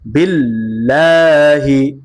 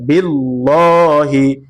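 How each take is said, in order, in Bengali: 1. L ধ্বনিটি হালকা ও পাতলা। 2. L ধ্বনিটি ভারী ও মোটা। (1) "পাতলা করে পড়তে হয়" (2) "উচ্চারণটা সহি হবে না"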